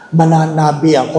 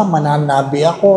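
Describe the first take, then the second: First: Plain mananabi; first take. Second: Mananabi ako with a rising ask; second take. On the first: Priest says Mananabi to the congregation plainly. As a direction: Mananabi said plainly, stress early. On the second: Priest repeats Mananabi to the congregation, rising. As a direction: Mananabi said again, ako lifted like a question. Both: Shown as a demonstration.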